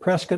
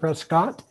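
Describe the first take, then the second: First: The last syllable is reduced, rhyming with biscuit. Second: The last syllable is full, sounding like cot. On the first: This is how locals say the name. The speaker calls it right. "we pronounce it Prescott like biscuit" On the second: This is how newcomers say the name. The speaker calls it wrong. "instead of Prescott"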